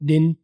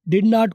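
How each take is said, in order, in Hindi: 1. दोनों शब्द मिलकर एक छोटा अक्षर बन जाते हैं। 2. दोनों शब्द पूरे और अलग-अलग बोले जाते हैं। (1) "डिन जो है ये रिडक्शन है" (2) "डिड नॉट को डिन"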